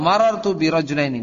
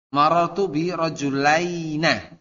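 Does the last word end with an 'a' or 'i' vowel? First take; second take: i; a. First: The final syllable ends with an i vowel. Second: The final syllable ends with an a vowel. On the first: This is the usual form. "semuanya maksurah" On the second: This form is very rarely used. "kalau bi fathihi"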